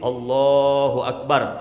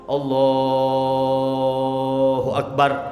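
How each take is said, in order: First: It is said at a moderate length. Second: It is drawn out for too long. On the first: The speaker calls it right. "cukup tuh. Kurang dari empat belas harokat" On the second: The speaker calls it wrong. "itu kepan kepanjangan"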